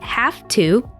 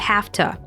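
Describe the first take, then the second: First: Both words are said fully and separately. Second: The words blend into a reduced 'hafta'. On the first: "The phrase have to" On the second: "is commonly reduced to"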